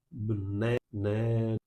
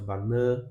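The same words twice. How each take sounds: First: 'bné, né' as English banana, outer vowels swallowed; murmured weak vowels. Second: 'Banana' Portuguese style, strong middle syllable; clear vowels. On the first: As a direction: reduce 'banana' to 'b'néna', only the middle syllable clear. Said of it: "Com as vogais mais fracas, mais murmuradas". ('bné, né' com vogais fracas, murmuradas) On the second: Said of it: "com as vogais bem claras". ('Banana' com vogais claras, 'nã' forte) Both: Shown as a demonstration.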